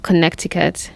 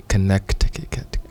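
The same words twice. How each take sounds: First: "Connecticut" said the Kenyan way, kə-NEK-ti-kut; kenyan accent. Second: Slow copy of "Connecticut" as kə-NEK-ti-kik-ut; imitating kenyan accent. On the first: Shown as a demonstration. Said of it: "in the Kenyan voice". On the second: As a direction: tries the Kenyan "Connecticut" slowly. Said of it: "It doesn't work, man".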